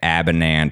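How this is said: The surname is said in an American way. The speaker calls it wrong. "he was saying it Abinant because he's from Michigan"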